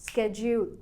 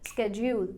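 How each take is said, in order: The two takes are said the same way.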